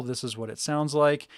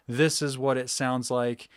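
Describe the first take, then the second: First: Said in the usual way. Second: A little more voice, projected from six inches off; elevated voice. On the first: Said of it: "I'm talking normal". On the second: Shown as a demonstration. Showing the mic test from six inches away with a raised voice. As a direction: lift the voice a notch to fill the room. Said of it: "If I elevate my voice".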